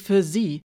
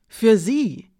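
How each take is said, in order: First: Said in the usual way. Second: Für sie repeated higher and louder; stress on für sie. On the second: A narrator's reading. Narrator stressing that Alina turned for her.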